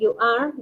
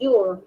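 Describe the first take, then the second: First: It is said as two full words. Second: It is said as one contracted syllable. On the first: "en vez de decir you are" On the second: "dices your"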